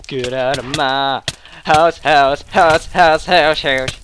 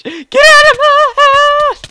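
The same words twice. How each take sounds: First: Low, softened echo of an order; low mock menace. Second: Drawn-out, very high squeal of mock outrage; high mock screech. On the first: Gamer ordering an opponent out, low repeating voice. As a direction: drop low and repeat the last word like an echo. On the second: Gamer ordering an opponent out of his house, shrieking.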